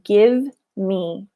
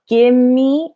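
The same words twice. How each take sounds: First: Both words are pronounced clearly and separately. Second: The two words blur into one, like gimme. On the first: "instead of" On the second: "that's an informal contraction"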